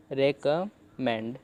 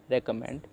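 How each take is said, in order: First: recommend stretched out slowly, re-kam-mend, with a clear final d; slow syllable demo. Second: Said in the usual way. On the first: Shown as a demonstration. Teacher modelling the word for learners, very slow. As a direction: spell out recommend slowly by ear. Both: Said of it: "ऐसे आप पढ़ सकते हो".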